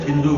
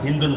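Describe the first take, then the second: First: The word ends on a plain vowel. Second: The word ends with an added n sound. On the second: "Hindun dia kenapa tanwin"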